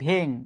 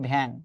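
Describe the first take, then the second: First: The vowel is a closed e sound. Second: The vowel is an open a sound. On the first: This is how the word is written. "ভ্যাং শব্দটা হচ্ছে এই ভেং" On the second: This is how the word is actually spoken. "উচ্চারণ হচ্ছে ভ্যাং"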